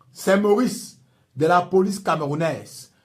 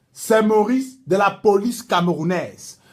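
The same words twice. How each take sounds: No difference in how they are said.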